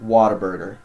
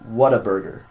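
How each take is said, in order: First: The first part sounds like the word water. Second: The first part sounds like the word what. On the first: "that's how I say it" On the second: "a lot of other people, I guess, call it"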